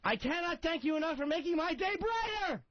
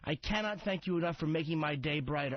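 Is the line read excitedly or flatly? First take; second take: excitedly; flatly. First: It is read with excited, exclamatory energy. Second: It is read in a plain, flat way.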